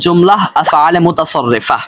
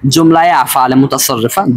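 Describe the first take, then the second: First: The first word ends in a plain 'h' sound. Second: The first word links onward with a 'ye' sound. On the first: "দুই ভাবেই বললাম" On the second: "দুই ভাবেই বললাম"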